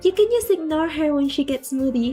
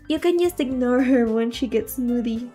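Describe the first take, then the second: First: It is read in a put-on character voice. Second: It is read in a plain, normal voice.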